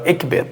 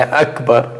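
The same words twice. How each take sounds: First: EKBER with E vowels in both syllables; incorrect pronunciation. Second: AKBAR with open A in both syllables; correct pronunciation. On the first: Teacher contrasts the wrong form with Akbar, E vowels. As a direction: show the error, "Ekber" with E for A. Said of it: "Aí é incorreto". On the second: Teacher contrasts right with wrong for students, open A vowels. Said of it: "Não é Akbar". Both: Shown as a demonstration.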